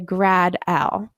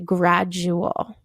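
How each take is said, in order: First: The 'u' sound before 'al' is left out. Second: The 'u' sound before 'al' is pronounced. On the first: The speaker calls it wrong. "we couldn't say grad-al" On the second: The speaker calls it right. "we would say gradual"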